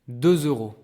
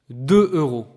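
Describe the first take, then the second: First: A z sound links the two words together. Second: The two words are said apart, with no linking. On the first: "Do you hear what's strange here?" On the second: "this is deux, this is euro, so by right, this should be read deux euros"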